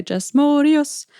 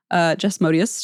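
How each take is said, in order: First: Morius drawn out slowly, syllable by syllable; name said a special way. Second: Said in the usual way. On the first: Shown as a demonstration. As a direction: stretch out Jess Morius slowly, savouring each syllable. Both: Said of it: "I can't help but say it this way".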